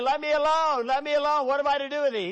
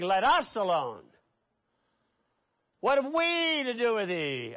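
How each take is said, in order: First: High, loud demon cry on me and I; wrong reading. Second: Us and we leaned on, calmer voice; stress on us. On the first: Preacher showing the wrong pronoun, higher and louder. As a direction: stress me and I as a single demon. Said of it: "He's not saying". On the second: Preacher showing the demons speak as many, stressing us. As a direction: hit us and we to show many demons. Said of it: "He's saying". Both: Shown as a demonstration.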